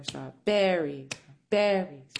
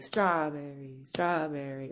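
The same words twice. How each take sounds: First: "strawberry" with the accent moved onto "berry"; slow "strawBERRY", "BERRY", accent on the back half; stress on BERRY. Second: "strawberry" accented on the first syllable; rhythmic "STRAWberry", accent up front; stress on STRAW. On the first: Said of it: "working on the accent". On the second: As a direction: lean on "straw", let "berry" drop away in "strawberry". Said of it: "inside of the concept of rhythm is accent". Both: Shown as a demonstration.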